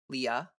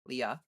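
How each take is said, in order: Both takes have the same delivery.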